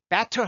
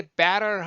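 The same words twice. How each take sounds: First: Better with a burst of air on the T; strongly aspirated T in Better; puffed T. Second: Better drawn out as "be-rer"; low-breath flap. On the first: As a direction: blast the T in Better. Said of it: "휴지가 푹 날라요". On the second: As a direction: let only a little air out in better. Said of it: "살짝 움직입니다". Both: Shown as a demonstration.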